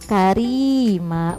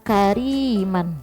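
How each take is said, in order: First: The word ends with a long vowel. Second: The word ends with an n sound. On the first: The word is read with a stop at the end of the sentence. The speaker calls it right. "fathah tanwinnya kita hapus, jadi satu aja dibacanya karima" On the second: The word is read as written, with the nunation. The speaker calls it wrong. "dia tulisannya kariman"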